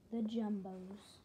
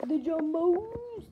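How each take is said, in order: First: Said in the usual way. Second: Much higher, louder, slow booming reveal; hype announcer. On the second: Shown as a demonstration. Repeats title as big reveal.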